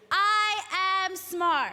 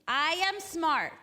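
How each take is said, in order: First: It is said loudly, with lots of energy. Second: It is said plainly, with ordinary energy.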